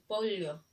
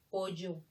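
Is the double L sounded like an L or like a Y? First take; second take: L; Y. First: The double L is sounded like an L. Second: The double L is sounded like a Y. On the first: This is the standard pronunciation. "Lo correcto debe ser pollo" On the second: This is how the local speakers say it. "Le damos el sonido de la Y"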